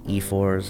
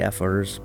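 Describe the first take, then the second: First: It sounds like the letter E plus four. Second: The first syllable is not the letter E. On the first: "I just naturally pronounce that's it, E4s" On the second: "It could be Efors"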